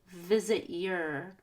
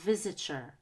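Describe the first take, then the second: First: The T and Y are said separately. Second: The T and Y blend into CH. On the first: The speaker calls it wrong. "is it easier to say visit your" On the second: The speaker calls it right. "there's a C H sound"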